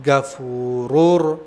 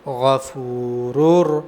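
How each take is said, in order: First: It begins with a hard g sound. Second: It begins with a throaty gh sound. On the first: The speaker calls it wrong. "गाफ की अदायगी है" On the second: The speaker calls it right. "गईन की अदायगी है"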